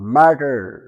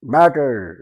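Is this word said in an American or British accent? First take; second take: American; American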